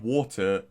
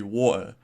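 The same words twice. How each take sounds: First: Said in the usual way. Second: "water" with the T left out; Norfolk dropped T. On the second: Shown as a demonstration. YouTuber showing viewers his Norfolk accent, "water" without its T. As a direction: say "water" as wa'er, no T sound. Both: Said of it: "miss out saying T's".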